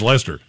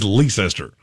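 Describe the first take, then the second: First: It is said short, like Lester. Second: It is said with every written letter sounded. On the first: "If you want it to be pronounced Leicester, spell it. L-E-S-T-E-R. That's Leicester" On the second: "I say it exactly how it is on the screen. And L-E-I-C-E-S-T-E-R is Leicester"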